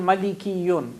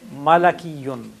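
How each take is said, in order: First: The second vowel is i. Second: The second vowel is a. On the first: The speaker calls it wrong. "It should have been Malikiyun" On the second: The speaker calls it right. "we say Malakiyun"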